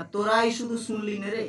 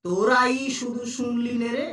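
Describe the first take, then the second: First: Said in the usual way. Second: "তোরাই" stretched out, rest follows evenly; drawn-out তোরাই. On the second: Shown as a demonstration. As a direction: stretch তোরাই and lift it at the end. ("তোরাই" টেনে বলা) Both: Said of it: "যদি এরকম বলতাম যে".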